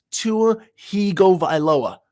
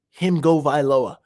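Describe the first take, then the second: First: Hype chant. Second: Said in the usual way. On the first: Shown as a demonstration.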